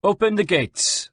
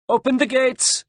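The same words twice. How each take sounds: First: High, slow, measured command; officer's order. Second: Very high, carrying call; shouted order. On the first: Captain instructs his sergeant, measured command. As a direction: give the order to a subordinate. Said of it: "said to his sergeant". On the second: Sergeant relays captain's order to the gate, shouted. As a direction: call the command out to the gatekeepers. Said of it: "shouted the sergeant". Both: A narrator's reading.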